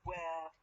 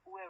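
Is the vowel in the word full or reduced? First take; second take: full; reduced. First: The vowel is full and clearly pronounced. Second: The vowel is reduced and linked with an r. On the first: "I have the strong forms" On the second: "I put re sound because I have easy"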